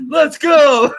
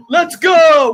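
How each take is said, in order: First: Loud, higher "Let's go!" from the army; mock army shout. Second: Loud, higher mocking "Let's go!"; mock shout. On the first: Mocking the movie army's battle cry with a shout. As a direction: yell "Let's go!" like a whole army in mockery. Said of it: "the army wanted". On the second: Mocking an actor's modern battle cry with a loud shout. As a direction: bark "Let's go!" like a dumb movie soldier.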